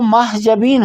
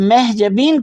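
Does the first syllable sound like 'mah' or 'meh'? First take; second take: mah; meh. First: The first syllable is said as 'mah'. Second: The first syllable is said as 'meh'. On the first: The first part means moon. The speaker calls it right. "वो महजबीन होना चाहिए" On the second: The first part means fog. The speaker calls it wrong. "जब महजबीन कहते हैं तो वहाँ वो गलत है"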